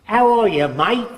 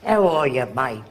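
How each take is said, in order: First: Loud, higher Australian greeting; hearty Australian-accented hello. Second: Put-on Australian accent. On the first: Retold or imitated. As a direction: call out a cheery Aussie "mate" in an Australian accent. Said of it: "that guy comes from Australia". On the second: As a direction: repeat the Aussie hello in an Australian accent, trailing off. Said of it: "you'd speak that way".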